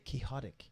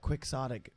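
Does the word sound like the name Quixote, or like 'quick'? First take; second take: like Quixote; like quick. First: It sounds like the name Quixote. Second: It begins with a 'quick' sound. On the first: This follows the name the word comes from. "it's from the name Don Quixote. Why don't we say quixotic?" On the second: This is the usual English way to say it. "we pronounce that quixotic"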